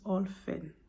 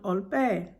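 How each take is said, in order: First: The middle consonant is an f sound. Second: The middle consonant is a p sound. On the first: The speaker calls it right. "with an F" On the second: The speaker calls it wrong. "not the P"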